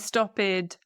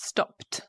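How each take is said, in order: First: The ending is not a plain T sound. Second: The ending is a plain T sound. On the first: The speaker calls it wrong. "A common mistake would be for English learners to say" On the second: The speaker calls it right. "with a T sound because of the P"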